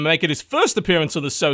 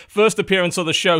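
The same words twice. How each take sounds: First: Said in the usual way. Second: Brighter, punchier intro line; livelier retake. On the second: Shown as a demonstration. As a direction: sell the word first with energy. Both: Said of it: "try again".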